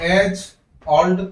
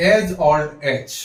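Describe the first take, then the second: First: Put-on as and old split apart, each stressed; as old broken into two stressed words; wrong choppy reading. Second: Put-on as old as run together, slow; as old as said smoothly as one phrase; linked phrase. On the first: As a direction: read as, then old, separately. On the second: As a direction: flow as old as in one breath. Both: Shown as a demonstration. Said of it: "ऐसे नहीं पढ़ना है".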